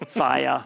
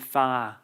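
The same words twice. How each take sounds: First: The word is stretched into two syllables. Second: The word is said as one syllable. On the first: "Instead of fire" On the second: "So one one syllable, or fire would be fire"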